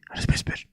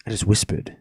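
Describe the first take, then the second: First: Soft, voiceless whisper; hushed whispered repeat. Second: Said in the usual way. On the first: Shown as a demonstration. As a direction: say it under the breath in a whisper. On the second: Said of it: "That's why I didn't yell".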